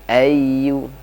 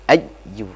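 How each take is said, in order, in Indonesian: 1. Kata "ayyu" diucapkan dengan lembut dan pelan. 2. Kata "ayyu" diucapkan dengan tekanan yang kuat. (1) "harusnya pelan saja ya" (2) "tidak perlu di terlalu tekan ya"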